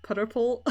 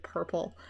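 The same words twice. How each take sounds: First: "Purple" as "puh-der-pul", with a tapped Scottish R; "Purple" broken up by a rolled Scottish R; Scottish pronunciation. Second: Said in the usual way. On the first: Shown as a demonstration. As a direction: imitate Scots struggling to say "Purple". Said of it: "Scottish people, like, trying to pronounce". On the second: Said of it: "trying to pronounce stuff like".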